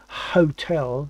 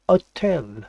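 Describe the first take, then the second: First: It is said with the h sounded, English-style. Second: It is said without the h, French-style.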